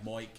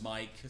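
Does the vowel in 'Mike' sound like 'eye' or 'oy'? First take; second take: oy; eye. First: The vowel is an Irish-style 'oy' sound. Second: The vowel is a standard 'eye' sound. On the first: "pronouncing your eyes as O eyes is like Moik" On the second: "instead of Mike"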